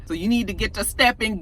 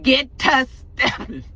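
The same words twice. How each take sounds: First: Said in the usual way. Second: "get to stepping" slow and high, each word punched; emphatic repeat. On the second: Retold or imitated. Sending Tariq away, "get to stepping" slow, high and emphatic. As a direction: draw out "get to stepping", pitch raised.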